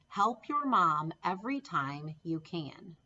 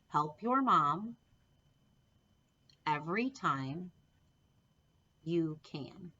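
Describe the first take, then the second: First: The sentence is spoken at a normal pace. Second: The sentence is spoken more slowly. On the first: "say it with me" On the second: "Let's say it more slowly"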